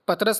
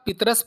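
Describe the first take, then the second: First: The first vowel is a short 'a'. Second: The first vowel is a short 'i'. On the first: The speaker calls it wrong. "पतरस नहीं" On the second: The speaker calls it right. "इसे आप पितरस पढ़ें"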